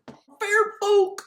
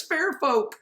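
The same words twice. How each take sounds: First: Very high, loud cartoon exclamation; mock cartoon cry. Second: Said in the usual way. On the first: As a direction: squawk the name in a silly put-on voice. Mock cry repeating the name.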